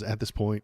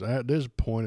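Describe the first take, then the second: First: It is said in his own natural voice. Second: It is said in a put-on imitating voice.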